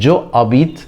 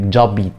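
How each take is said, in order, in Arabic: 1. تُحتفظ بحركة je، والكلمتان منفصلتان. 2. تُحذف الحركة، فتتصل الكلمتان ببعض. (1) "كانت جو ابيت" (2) "بقت جابيت"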